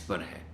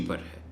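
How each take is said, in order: Both takes have the same delivery.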